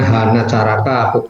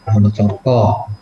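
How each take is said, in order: First: The vowels are said as open 'a' sounds. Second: The vowels are said as rounded 'o' sounds.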